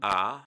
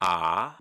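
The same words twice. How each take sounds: First: The vowel is held for a medium time. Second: The vowel is held for a long time.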